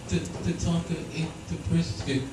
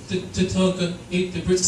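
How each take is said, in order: First: Put-on soft, hushed child's report, a touch of worry; a small voice breaking bad news; hushed little daughter. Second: Lightly voiced little girl, hesitant; a hint of a child confessing, stammering; daughter's voice. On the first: Daughter quietly telling dad the dog ate it, hushed. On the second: Daughter telling dad about the dog, lightly voiced. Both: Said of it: "My daughter goes".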